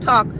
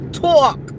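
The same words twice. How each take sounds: First: The vowel is plain, with no added glide. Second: The vowel carries a drawn-out w-like glide. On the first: "Not talk" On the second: "I'm putting all the W's in my words"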